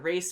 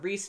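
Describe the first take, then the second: First: The name has an ay vowel. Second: The name has an ee vowel. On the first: "the Race family" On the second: "We were saying the Reese family"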